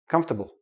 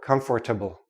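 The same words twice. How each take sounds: First: The middle 'or' syllable is dropped. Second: The middle 'or' syllable is pronounced fully. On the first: The speaker calls it right. "We don't say the or" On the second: The speaker calls it wrong. "No, don't do that"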